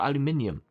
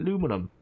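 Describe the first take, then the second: First: It is said in five syllables, ending -nium. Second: It is said in four syllables, ending -num. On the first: The speaker calls it right. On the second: The speaker calls it wrong.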